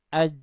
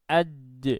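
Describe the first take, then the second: First: The final consonant is held closed without release. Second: The final consonant is released with a bounce. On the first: "suara lebih dulu tertahan di makhrajnya" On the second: "yang akan muncul adalah bunyi pantulan"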